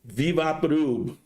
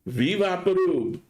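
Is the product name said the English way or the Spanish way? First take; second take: Spanish; Spanish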